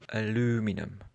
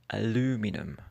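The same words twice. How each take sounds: The two takes are said the same way.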